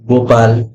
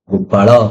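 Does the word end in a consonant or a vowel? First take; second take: consonant; vowel. First: The word ends on a bare consonant sound. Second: The word ends with a short vowel sound. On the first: This is how Hindi speakers say it. "ଆମର ହିନ୍ଦୀରେ କୁହାଯାଏ" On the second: This is how Odia speakers say it. "କିନ୍ତୁ ଆମ ଓଡିଆରେ କଣ କହୁ"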